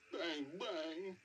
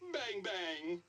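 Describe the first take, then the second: First: It is said in a sad tone. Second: It is said in a happy tone.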